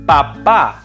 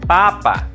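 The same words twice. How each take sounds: First: The stress is on the last syllable. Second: The stress is on the first syllable. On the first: "the A with an accent also sounds like a" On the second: "The A without an accent sounds like a"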